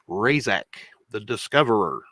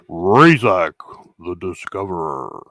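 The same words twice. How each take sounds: First: It is said in an ordinary speaking voice. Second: It is said in a radio announcer voice.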